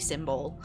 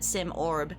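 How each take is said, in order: First: The name sounds like the word 'symbol'. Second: The name ends with an 'orb' sound. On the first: This is the speaker's own playful choice. "It must be Symbol" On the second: This is how most people say the name. "I could be like everyone else and call it Sim Orb"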